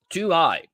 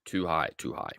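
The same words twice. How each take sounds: First: A sharp, higher cry of Too high, rueful at his own entry; exclaiming too high. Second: Muttered to himself. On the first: Trader realising he bought too early, higher rueful exclamation. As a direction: yelp "Too high" up high like a wince. Reacting to an early euro buy. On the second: Trader scolding himself for his entry, soft lower mutter. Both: Real, not acted.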